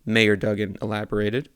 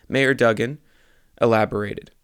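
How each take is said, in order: First: Mayor Duggan elaborated closed with a firm falling finish; proper sentence ending. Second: Mayor Duggan elaborated with a rising, unfinished lilt; wrong cadence. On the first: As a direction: bring "elaborated" down to a full stop. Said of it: "that's how you read the end of a fucking sentence". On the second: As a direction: let "elaborated" hang up as if the sentence goes on. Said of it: "I read that with all the wrong cadence". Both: Shown as a demonstration.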